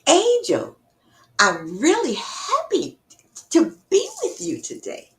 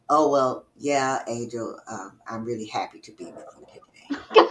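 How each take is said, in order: First: It sounds sincere and genuinely happy. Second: It sounds hesitant and unenthusiastic.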